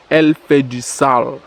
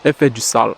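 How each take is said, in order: First: Slow, spaced-out verdict; slow emphatic repeat. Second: Said in the usual way. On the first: Real, not acted. Vlogger repeats his verdict to his bro, slow and emphatic. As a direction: draw it out to drive it home.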